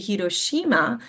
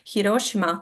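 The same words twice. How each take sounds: First: One syllable is clearly stressed over the others. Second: All syllables are said with even stress. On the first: The speaker calls it wrong. "here a lot of times we will say Hiroshima" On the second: The speaker calls it right. "they don't really have the accent. So it's supposed to be Hiroshima"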